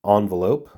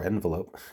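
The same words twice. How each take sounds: First: Envelope said ON-velope, first vowel as in on. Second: Envelope said EN-velope, first vowel as in pen. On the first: Joking to viewers about two pronunciations, ON-velope. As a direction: start "envelope" with an ahn sound. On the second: Joking to viewers about two pronunciations, EN-velope. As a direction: start "envelope" with an en sound, as in pen. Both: Shown as a demonstration. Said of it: "making a joke about how it can be pronounced both ways".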